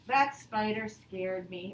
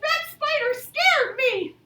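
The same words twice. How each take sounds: First: It is said flatly, just telling. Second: It is exclaimed with strong feeling.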